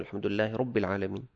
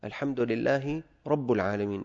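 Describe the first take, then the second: First: Said in the usual way. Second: "رب" with damma, rabbu; mispronounced vowel. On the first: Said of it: "بدل ما يقول". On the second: Shown as a demonstration. Teacher recites the faulty verse, "رب" pronounced rabbu. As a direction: recite "رب" as rabbu instead of rabbi. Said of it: "بضم الباء أو فتحها".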